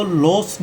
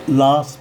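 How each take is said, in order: First: लॉस with a long round "o", lohs; wrong pronunciation. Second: लॉस with open "aa", laas; corrected pronunciation. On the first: Teacher shows students what not to say, wrong pronunciation. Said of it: "इसको लॉस नहीं बोलेंगे". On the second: Teacher gives students the right form, corrected pronunciation. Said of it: "लॉस बोलेंगे". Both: Shown as a demonstration.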